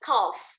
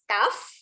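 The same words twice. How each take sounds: First: It is said in a British accent. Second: It is said in an American accent. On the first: "British English cough, agak O" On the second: "American English cough"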